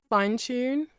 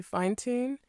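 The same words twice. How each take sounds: First: "tune" begun with a "ch"; British-style "Fine tune", ch onset in "tune"; British TU sound. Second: "tune" begun with a hard "t"; American-style "fine tune", plain t in "tune"; American TU sound. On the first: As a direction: say "tune" as "choon". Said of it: "how the T U sound changes". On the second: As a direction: say "tune" as "toon". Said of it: "compared to". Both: Shown as a demonstration.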